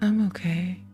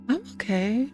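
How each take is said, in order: First: It sounds unhappy, as if not really okay. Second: It sounds content, as if genuinely fine.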